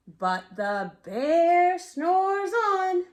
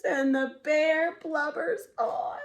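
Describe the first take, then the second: First: Drawn-out slow refrain, louder; slow sleepy refrain. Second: Slow refrain with a touch of crying; blubbering refrain. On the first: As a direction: stretch every word like a yawn. Refrain read to child. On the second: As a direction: let the refrain sag with tears. Sad refrain for crying bear. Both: A narrator's reading.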